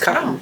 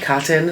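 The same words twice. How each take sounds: First: The t sounds are left out entirely. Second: The t sounds are pronounced clearly and crisply. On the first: This is how it is said in everyday life. "I don't even put the T's in there" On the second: This is how it comes out when talking on video. "I extra pronounce the cotton"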